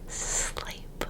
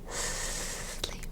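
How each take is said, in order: First: The S is drawn out into a long hiss. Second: The same.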